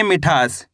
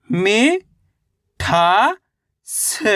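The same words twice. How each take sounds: First: Said in the usual way. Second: "मि, ठा, स" one drawn-out syllable at a time; अक्षर-दर-अक्षर उच्चारण. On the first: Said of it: "कैसे पढ़ेंगे?". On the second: Shown as a demonstration. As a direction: sound out "मि", "ठा", "स" with clear gaps between. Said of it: "एक अक्षर का उच्चारण ही तो करना". ("मि, ठा, स" को अलग-अलग खींचकर बोलना)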